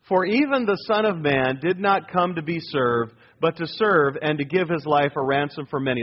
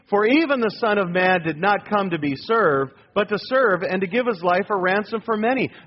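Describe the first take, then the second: First: It is read plainly, with ordinary energy. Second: It is read forcefully, with strong conviction.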